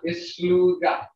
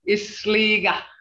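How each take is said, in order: First: The middle has a clear u sound. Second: The middle has no clear u sound. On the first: The speaker calls it right. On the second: The speaker calls it wrong.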